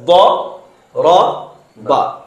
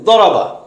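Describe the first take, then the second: First: Each syllable is said separately with pauses. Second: The syllables run together quickly without pauses. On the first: "পৃথক পৃথক করে বলবো এভাবে" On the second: "একবারে বলি ... তিনটা একসাথে উচ্চারণ হয়েছে, তাড়াতাড়ি হয়েছে"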